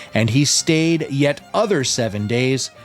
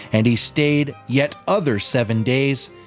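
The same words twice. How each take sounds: Both takes have the same delivery.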